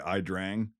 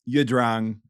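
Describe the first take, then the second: First: The name is said in the American pronunciation. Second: The name is said in its native pronunciation. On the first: "Americans say Idrang" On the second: "is, like, how it's pronounced"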